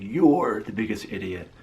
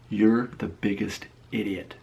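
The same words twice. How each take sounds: First: You're raised and drawn out; stress on You're. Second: Said in the usual way. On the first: Acted. Pointing out the commenter's misspelling, You're heavily stressed. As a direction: lean hard and long on You're. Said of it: "Daniel Catt did the same thing". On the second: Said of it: "Here's what he says".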